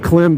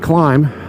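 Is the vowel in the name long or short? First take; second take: short; long. First: The vowel is short, as in 'him'. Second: The vowel is long, as in 'climb'. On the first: The speaker calls it wrong. "It's not pronounced Klim" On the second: The speaker calls it right. "It's pronounced Climb... you pronounce it as a long, a long vowel"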